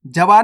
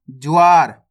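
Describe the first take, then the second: First: जवार said as "ja-vaar", with a full "ja"; wrong full-letter reading. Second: ज्वार said as "jwaar", j gliding straight into a long waar; half-letter reading. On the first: (जवार में पूरा ज, फिर अलग से वार) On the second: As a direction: glide through ज्वार with no vowel after j. (ज्वार में आधा ज, सीधे वा से जुड़ा) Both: Shown as a demonstration. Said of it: "जवार नहीं पढ़ना".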